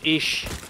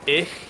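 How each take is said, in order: First: The word ends in a soft sh sound. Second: The word ends in a throaty ch sound. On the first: This is how southern Germans say it. "And in southern, it's ish" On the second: This is how northern Germans say it. "in northern Germany. If you say I, it's ich"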